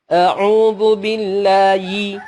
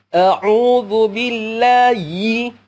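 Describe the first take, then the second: Both takes have the same delivery.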